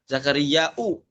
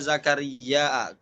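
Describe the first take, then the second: First: It ends with a glottal stop and a u vowel. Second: It ends with a glottal stop and an a vowel. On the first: "ya Zakaria u bukan Zakaria A lagi" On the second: "ditambah hamzah belakangnya Zakaria a"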